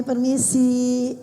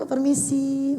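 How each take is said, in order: First: "Permisi" drawn out slowly and politely. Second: Said in the usual way. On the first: Shown as a demonstration. Teacher showing a child how to say "Permisi", slow and polite. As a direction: stretch "Permisi" slowly, gently, as taught to a child. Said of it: "Begini ya nak ya. Ditaruh tangannya begini". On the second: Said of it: "Dikasih tahu tuh".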